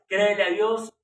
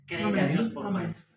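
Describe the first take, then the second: First: "Créele a Dios" much louder, with a rise on "Créele"; louder plea. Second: Said in the usual way. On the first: Shown as a demonstration. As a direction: urge the listener, with force behind "Créele".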